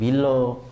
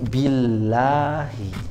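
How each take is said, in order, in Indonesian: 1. Vokal setelah L adalah o tebal. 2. Vokal setelah L adalah a tipis. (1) "jangan bilo" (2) "ini bunyinya a"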